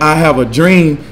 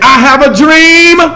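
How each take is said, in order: First: It is said quietly and timidly. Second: It is said loudly, like a preacher.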